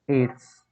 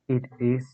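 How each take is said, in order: First: It is said as one short joined word. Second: It is said as two separate full words.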